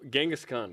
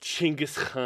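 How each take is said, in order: First: It is said without a guttural throat sound. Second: It is said with a guttural throat sound.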